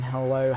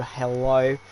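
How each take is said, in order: First: Said in the usual way. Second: A quick Australian "hello"; Australian accent. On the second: Shown as a demonstration. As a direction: greet them like an Aussie. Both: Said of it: "I went Australian there".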